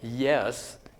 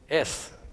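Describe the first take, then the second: First: The word begins with a y glide sound. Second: The word begins directly with a pure vowel. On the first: "ya as in yes" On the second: "you replace with the pure vowel sound"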